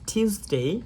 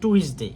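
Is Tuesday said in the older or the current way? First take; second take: current; older. First: The word is said with the current pronunciation. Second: The word is said with the older pronunciation. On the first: The speaker calls it right. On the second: The speaker calls it wrong.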